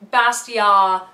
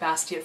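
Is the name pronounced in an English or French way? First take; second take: French; English. First: The name is pronounced the French way. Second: The name is pronounced the English way. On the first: "probably the right French way to say it" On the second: "I've said it Bastiat for so long"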